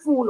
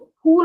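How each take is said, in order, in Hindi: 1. यह शब्द f ध्वनि से शुरू होता है। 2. यह शब्द एस्पिरेटेड p ध्वनि से शुरू होता है। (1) "इंग्लिश में फूल होता है" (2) "हम कहते हैं फूल होता है बेटा"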